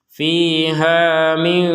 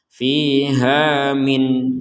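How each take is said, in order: First: The final n is hidden in nasalization. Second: The final n is pronounced clearly. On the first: "Kalau digabungkan barulah ada di situ uh, hukum dibaca dengan samar" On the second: "berhentinya di min, maka nun sukunnya dibaca min, dibaca dengan jelas"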